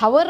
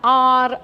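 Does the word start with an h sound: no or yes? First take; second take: yes; no. First: The word begins with an h sound. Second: The word begins with a vowel sound. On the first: The speaker calls it wrong. "ಇದನ್ನು ಹವರ್ ಅಂತ ಓದಲ್ಲ" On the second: The speaker calls it right. "ಆರ್ ಅಂತ ಓದ್ತೀನಿ"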